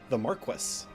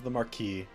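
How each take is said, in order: First: The title is said with an English pronunciation. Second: The title is said with a French pronunciation.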